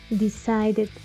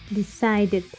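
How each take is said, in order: Both takes have the same delivery.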